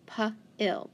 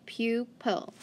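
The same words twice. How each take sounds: First: Pu-il broken into two separate syllables; sounded out by syllable. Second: Said in the usual way. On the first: Shown as a demonstration. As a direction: split into its parts, Pu-il, with a break between the two syllables. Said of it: "then an I in front of an L, so it's gonna be short".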